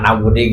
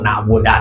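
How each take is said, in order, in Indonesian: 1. Kata na'budu berakhir dengan vokal i. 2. Kata na'budu berakhir dengan vokal a. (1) "salah maca" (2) "salah maca"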